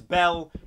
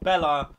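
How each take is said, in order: First: The name ends on the L sound. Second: The name ends with an extra vowel. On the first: The speaker calls it right. "It's Belle" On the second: The speaker calls it wrong. "not Bella"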